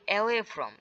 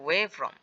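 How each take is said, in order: First: The first word starts with a vowel sound. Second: The first word starts with a w sound. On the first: The speaker calls it wrong. "এটাকে আমরা অনেকে উচ্চারণ করি অ্যাওয়ে from" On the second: The speaker calls it right. "এটা অ্যাওয়ে না, এটার উচ্চারণ হচ্ছে ওয়ে ফ্রম"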